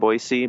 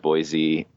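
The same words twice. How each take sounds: First: The middle consonant is an s sound. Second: The middle consonant is a z sound. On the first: This is how locals say the name. The speaker calls it right. "start saying Boise ... that's the way we say it" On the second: This is how outsiders say the name. The speaker calls it wrong. "I too thought it was Boise"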